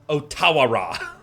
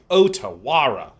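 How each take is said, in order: First: The stress is on ta. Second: The stress is on O and wa. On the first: "emphasize the ta" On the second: "where you emphasize the O and the wa"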